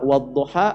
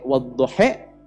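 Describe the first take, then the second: First: The final vowel is an open 'a' sound. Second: The final vowel is an 'e' sound. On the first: "menggunakan A"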